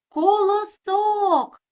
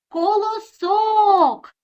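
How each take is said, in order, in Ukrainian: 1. Слово кличуть, розтягуючи наголошений склад. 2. Слово кличуть, розтягуючи наголошений склад.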